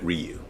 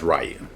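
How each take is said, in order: First: Ryu said as REE-you; alternative pronunciation REE-you. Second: Ryu said as RYE-you; usual pronunciation RYE-you. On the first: Reviewer notes how some others say the name, Ryu said REE-you. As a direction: say Ryu with a first syllable like "ree". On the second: Reviewer gives his verdict on the casting, Ryu said RYE-you. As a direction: say Ryu with a first syllable like "rye". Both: Shown as a demonstration. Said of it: "or some pronounce it Ryu".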